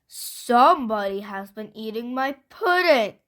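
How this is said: It is said in a great big voice.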